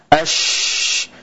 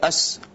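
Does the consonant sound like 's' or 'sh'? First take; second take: sh; s. First: The consonant is a spread 'sh' sound. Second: The consonant is a narrow 's' sound. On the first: The speaker calls it right. "yaitu menyebarnya udara di mulut" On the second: The speaker calls it wrong. "Tidak as"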